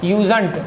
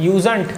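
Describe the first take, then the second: The two takes are said the same way.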